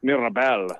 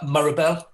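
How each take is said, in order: First: "Mirabel" with a French-tinged MEE-ra-bel; "Mirabel" with a clear ee-like first vowel; local French-border pronunciation. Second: "Mirabel" with a Geordie first vowel, MURR-a-bel; Geordie pronunciation. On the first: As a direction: say "Mirabel" as Canadians near the French border do, lower. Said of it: "so it's, like, all". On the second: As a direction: say "Mirabel" the Geordie way, lifting at the end. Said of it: "This is how I say it". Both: Shown as a demonstration.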